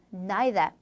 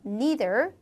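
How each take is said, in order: First: Neither starting with nai, like nye-ther; British neither; 영국식 neither; British pronunciation. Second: Neither starting with nee, like nee-ther; American neither; 미국식 neither; American pronunciation. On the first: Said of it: "영국 발음에서는 neither". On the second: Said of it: "미국 발음에서 neither". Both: Shown as a demonstration.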